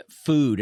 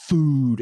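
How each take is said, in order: First: Said in the usual way. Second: "Food" hit louder and higher; stress on the word. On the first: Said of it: "The word, it was like f". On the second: Shown as a demonstration. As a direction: punch "Food" as the punchline. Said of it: "the food word kind of more of an emphasis".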